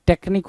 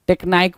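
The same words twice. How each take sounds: First: टेक्निक with a short "nik"; correct pronunciation. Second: टेक्नाइक with a long "aik" at the end; wrong pronunciation. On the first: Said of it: "टेक्निक होता है". (सही उच्चारण: टेक्निक, छोटा "निक") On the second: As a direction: say टेक्नाइक the wrong way, stretching "naik". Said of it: "टेक्नाइक बोला है". (गलत उच्चारण: टेक्नाइक, "नाइक" खींचकर) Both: Shown as a demonstration.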